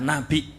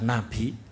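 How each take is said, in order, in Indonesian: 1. Kata itu diucapkan dengan hentian glotal. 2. Kata itu diucapkan tanpa hentian glotal. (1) "Nek dibaca nabi pakai hamzah" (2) "boleh dibaca nabi bila hamzah"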